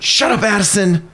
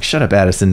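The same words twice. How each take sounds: First: High-pitched mock scolding; teasing. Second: Said in the usual way. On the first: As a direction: playfully shush an excited student. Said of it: "teasing her".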